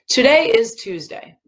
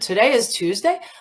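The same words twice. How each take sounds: First: The voice does not rise at the end. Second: The voice rises at the end. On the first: It is a plain statement of fact. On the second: It is a surprised question. "Like I'm surprised"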